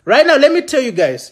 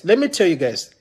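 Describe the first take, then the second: First: Higher, stressing NOW; emphatic opener. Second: Said in the usual way. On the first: Real, not acted. Rallying his viewers with a punched "now". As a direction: lean on "now" and land it.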